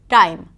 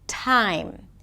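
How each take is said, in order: First: The T is unaspirated, without a puff of air. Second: The T is aspirated, with a puff of air. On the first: "it's not always aspirated" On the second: "The T is usually aspirated"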